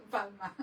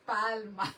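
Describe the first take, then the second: First: "palma" said clearly as PAL-ma; careful "palma" with a light laugh; word said right. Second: "Palma" said loud and clear as PAL-ma; word said right. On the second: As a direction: nail the word "Palma" cleanly. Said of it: "There you go". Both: Shown as a demonstration.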